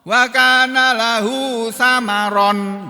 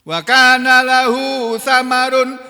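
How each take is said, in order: First: The last word ends with an 'an' sound. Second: The last word ends with an 'un' sound. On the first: The word means fruits from the gardens. "dengan bacaan nasab" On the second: The word means wealth or property. "dengan dhammah"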